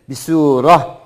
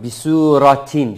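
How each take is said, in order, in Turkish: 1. Kelime h sesiyle biter. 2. Kelime t sesiyle okunur. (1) "üzerinde durulduğu zaman ise H harfiymiş gibi duruyoruz" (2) "okunduğu zaman T sesiyle, okunduğu zaman bisuratin şeklinde oluyor"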